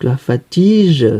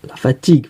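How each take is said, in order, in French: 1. La dernière consonne se prononce comme un J doux. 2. La dernière consonne se prononce comme un G dur. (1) "ça veut rien dire" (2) "Donc ça va être la fatigue"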